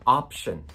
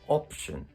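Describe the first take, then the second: First: The first vowel has open, unrounded lips. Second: The first vowel has slightly rounded lips.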